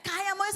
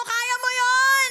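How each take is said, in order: First: Said in the usual way. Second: "Kaya mo yun!" shouted higher and louder, slow; shouted declaration. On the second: Shown as a demonstration. Preacher leads the church in shouting loudly. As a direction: belt out "Kaya mo yun!" to the crowd. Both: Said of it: "Sabi mo sa atin mo".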